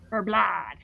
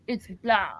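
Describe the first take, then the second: First: "blood" said like plad; wrong pronunciation. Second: "blood" with a short u vowel; correct pronunciation. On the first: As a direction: say "blood" with a flat open a, like plad. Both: Shown as a demonstration. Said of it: "Not, not blood, it's blood".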